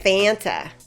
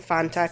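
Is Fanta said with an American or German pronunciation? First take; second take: American; German. First: It is said with an American pronunciation. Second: It is said with a German-sounding pronunciation. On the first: "in Illinois, we would pronounce it Fanta" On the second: "that sounds more German"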